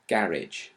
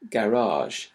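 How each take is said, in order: First: The stress falls on the first syllable. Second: The stress falls on the second syllable. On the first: This is the newer, English-style pronunciation. "younger speakers tend to have stress on the first syllable" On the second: This is the older, French-style pronunciation. "some older speakers particularly tend to stress the second syllable"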